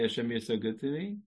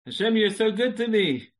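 First: Said in the usual way. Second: Higher and louder; joyful exclamation. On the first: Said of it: "how long does it take to say". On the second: Shown as a demonstration. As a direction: burst out with thanks. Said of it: "Let me time that".

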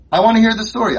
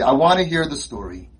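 First: Louder, higher, insistent; urgent, louder insistence; emphatic demand. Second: Said in the usual way. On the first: Shown as a demonstration. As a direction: demand to hear it, pushing hard.

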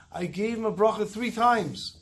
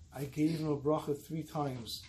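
First: Higher, slow, emphatic repetition of bracha; firm insistence. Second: Softer, slow, solemn reply; grave and quiet. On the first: Dayan insisting to the grieving son, emphatic. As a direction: lean on each word, slowly. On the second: Dayan quietly answering the accusing son, solemn. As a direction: drop the voice and let it land. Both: Retold or imitated.

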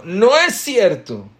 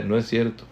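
First: Much higher, loud yelled denial; mock shouting. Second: Said in the usual way. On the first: The first person in the fight yelling louder still. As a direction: scream it to top the other one. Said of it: "va gritando más fuerte". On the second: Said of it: "gritando más fuerte".

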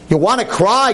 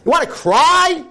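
First: Said in the usual way. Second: "You want to cry?" thrown out much higher and louder; challenging question. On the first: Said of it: "rhetorical question to audience". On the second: Acted. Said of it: "repeated rhetorical question, building".

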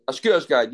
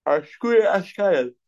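First: Said in the usual way. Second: High, slow mocking drawl; sarcastic woman. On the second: Woman teasing the man over the wine, sarcastic. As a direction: toss it off as a sarcastic brush-off. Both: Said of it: "assume that she's being sarcastic".

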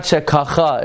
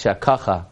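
First: "Shekacha" raised, stress thrown onto the final CHA; wrong stress. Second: "Shekacha" with stress on KA, falling away; correct stress. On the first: Rabbi shows the wrong way, "Shekacha" stressed on CHA. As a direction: punch the end of "Shekacha". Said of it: "It's not Shekacha". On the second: Rabbi gives the right way, "Shekacha" stressed on KA. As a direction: say "Shekacha" low, middle syllable stressed. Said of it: "it's Shekacha". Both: Shown as a demonstration.

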